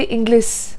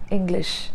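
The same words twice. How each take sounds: First: ENGLISH ending in S, "Ingliss"; wrong "English", S instead of SH; mispronunciation. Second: ENGLISH said flat, ending in SH; even "English", soft SH ending; flat pronunciation. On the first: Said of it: "You cannot say". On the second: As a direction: say "English" evenly with SH. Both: Shown as a demonstration.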